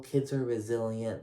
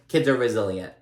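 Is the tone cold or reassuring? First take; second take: reassuring; cold. First: It sounds warm and reassuring. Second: It sounds cold and dismissive. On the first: The children will be fine and cope well. "it wasn't like, oh, kids are resilient, they'll get through this, it's fine" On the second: The children's trouble does not really matter. "the tone in which Margaret said it... she didn't mean it in like a a cold kind of way"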